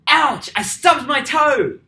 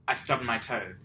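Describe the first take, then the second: First: It is yelled loudly, like an exclamation. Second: It is said calmly, like a plain statement.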